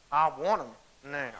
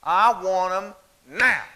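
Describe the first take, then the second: First: Put-on a touch of a child's teeth-clenched "now"; mild mock defiance, jaw tight; through clenched teeth. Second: Put-on slow, drawn-out "now" as a defiant little girl; defiant demand. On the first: Girl mimicking her mom's teeth talking, lightly voiced. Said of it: "she clenches her teeth". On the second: Girl on her back hip defying her mother, slow and pointed. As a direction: hand on hip, spell it out slowly. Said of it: "and she goes".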